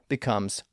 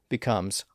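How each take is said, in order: No difference in how they are said.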